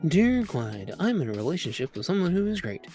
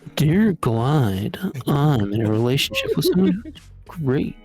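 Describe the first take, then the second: First: It is read quietly. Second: It is read loudly.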